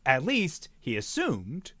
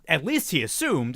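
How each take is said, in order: First: The phrase is broken by a pause. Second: The phrase is said quickly without a pause. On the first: The thought is set apart. "as opposed to" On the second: The thought comes quickly. "if you're trying to like be a faster thought"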